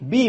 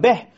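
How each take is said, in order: First: The vowel is a clear 'ee' sound. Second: The vowel is an open 'eh' sound. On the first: The speaker calls it right. "Bi bukan beh" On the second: The speaker calls it wrong. "bukan beh"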